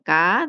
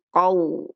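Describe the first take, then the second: First: The first consonant is thin and light. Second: The first consonant is thick and deep. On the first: The speaker calls it wrong. "Bukan ka" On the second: The speaker calls it right. "tapi qau. Hmm, tebal"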